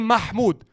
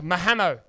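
First: The name is said without an inserted vowel. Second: The name is said with an extra vowel inserted. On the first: The name's owner said it. The speaker calls it right. "pronounce my name right" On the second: Someone unfamiliar with the name said it. The speaker calls it wrong. "how the fuck did he mispronounce it that much?"

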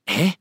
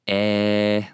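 First: It sounds shocked and surprised. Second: It sounds calm, not shocked.

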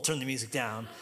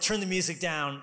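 First: It is said in a calm, ordinary tone. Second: It is said in an intense, aggressive tone. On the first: A plain request. "Not just like normal" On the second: The speaker is annoyed and insisting. "it's more intense. It's more aggressive"

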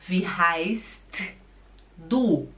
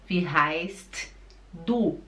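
Both takes have the same delivery.

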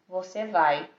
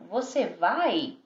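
First: The pitch stays level to the end. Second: The pitch rises at the end.

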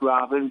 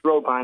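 First: The last syllable sounds like the bird name robin. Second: The last syllable rhymes with the end of turbine. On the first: The speaker calls it wrong. "It looks like Robin" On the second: The speaker calls it right. "the pronunciation is Robine, like a turbine"

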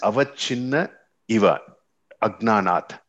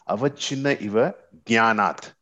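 First: The last word begins with an a sound. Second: The last word begins without an a sound. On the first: It is finite because of ignorance. The speaker calls it right. "first one is avachinna eva, agnanat" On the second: It is finite because of knowledge. The speaker calls it wrong. "I would have read it like this"

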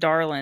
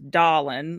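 First: The word is said without a strong Southern accent. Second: The word is said with a thick Southern accent. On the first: "It wasn't just darling" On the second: "it was dawlin"

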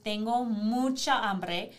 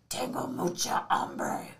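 First: It is said in the speaker's normal voice. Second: It is said in a Batman voice.

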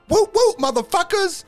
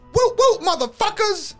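First: It is said in a lower voice. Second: It is said in a higher voice.

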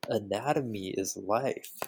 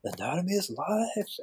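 First: It is said in a plain, normal voice. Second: It is said in a put-on foreign accent.

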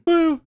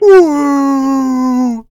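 First: The woo is fairly quiet. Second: The woo is very loud.

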